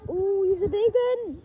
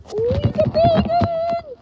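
First: Said in the usual way. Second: Much higher, louder, slow drawn-out awe; playful awestruck repeat of big one; wonder. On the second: Pretend. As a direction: stretch it out in amazed wonder.

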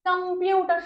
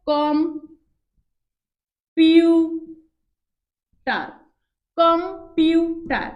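First: Said in the usual way. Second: "computer" very slow, as কম, পিউ, টার with pauses; three separate beats. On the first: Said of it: "শব্দটাকে উচ্চারণ করে দেখো". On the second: Shown as a demonstration. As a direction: chop "computer" into three drawn-out syllables. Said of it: "তিনটা ঝুঁকে উচ্চারণ করেছি". ("Computer" তিন ঝোঁকে, থেমে থেমে)

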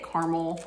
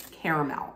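First: Caramel said as CAR-ml, two syllables. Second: Caramel said as CARE-uh-mel, three syllables. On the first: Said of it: "How do you say it?". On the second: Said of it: "a lot of people say it caramel". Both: Shown as a demonstration.

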